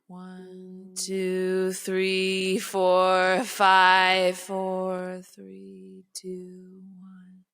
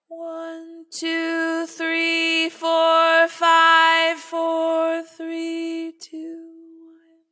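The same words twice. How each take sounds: First: The counting is at a low pitch. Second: The counting is at a higher pitch.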